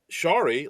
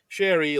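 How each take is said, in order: First: The first vowel is the open 'ah' of star. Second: The first vowel is the 'eh' sound of Barry. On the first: The speaker calls it right. "Shari like Starry" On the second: The speaker calls it wrong. "everyone says Sherry like Barry, and it drives me crazy"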